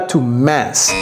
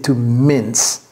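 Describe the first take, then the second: First: Mince is pronounced like the French word. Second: Mince is pronounced like the English word. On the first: The speaker calls it wrong. "Ne dites pas to mince" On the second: The speaker calls it right. "c'est to mince"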